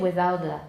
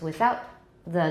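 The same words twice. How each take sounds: First: 'Without' runs straight into 'the' with no stop. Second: 'Without' ends with a stop before 'the'. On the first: The speaker calls it wrong. "we don't say without the" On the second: The speaker calls it right. "There's a stop at the end of without"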